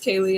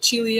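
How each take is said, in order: First: It is said like the English name Kaylee. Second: It is said the classical Latin way. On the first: The speaker calls it wrong. "no, it's Kaylee. It's a person" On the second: The speaker calls it right. "I've heard from Latinists it should be"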